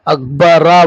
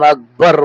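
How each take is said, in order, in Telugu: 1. ఈ పదం చివర ఒక అదనపు అచ్చు శబ్దం ఉంది. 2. ఈ పదం చివర కేవలం హల్లుతో ముగుస్తుంది. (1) "अकबरा बोल के नहीं बोल रहे हैं अपन" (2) "अकबर बोल के बोल रहे हैं"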